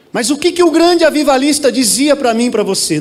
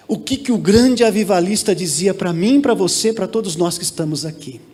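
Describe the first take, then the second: First: Raised preaching voice. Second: Lowered voice, easing down to a soft close; without shouting. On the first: Pastor asking the church what the great revivalist said, raised voice. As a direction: push the question out, nearly shouting. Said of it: "Não é gritando, não". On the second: Pastor with a microphone re-asking the church, no shouting. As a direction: ask it lower, letting it settle. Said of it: "não precisa nem gritar". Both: Real, not acted.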